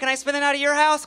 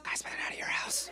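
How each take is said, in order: First: It is said in a normal speaking voice. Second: It is said in a whisper.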